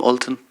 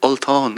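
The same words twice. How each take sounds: First: "Ultan" said the English way, short flat vowels; "Ultan" in the plain English form; anglicized name. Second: "Ultán" with the long Irish á, stress on tán; "Ultán", the correct Irish way; Irish name. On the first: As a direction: say "Ultan" as a computer would, no accent on the a. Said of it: "It's not Ultan". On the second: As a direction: say "Ultán" properly, lengthening the final vowel. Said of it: "that's his name". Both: Shown as a demonstration.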